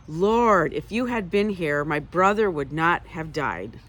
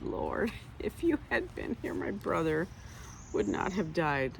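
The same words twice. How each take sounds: First: Angry. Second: Light, laughing and breathy; kindly. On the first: Martha scolding Jesus with loud reproach. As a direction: blame him for not coming. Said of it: "You could say it angrily". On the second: Martha gently teasing Jesus, kind and laughing. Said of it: "or you could say it so kindly". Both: Retold or imitated.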